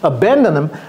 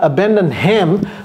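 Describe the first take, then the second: First: The h is dropped, linking n into him. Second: The h of him is clearly pronounced. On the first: The speaker calls it right. "le H disparaît" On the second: The speaker calls it wrong. "Ce n'est pas abandon him"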